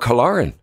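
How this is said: The name is said in an Irish accent. "if it's Irish"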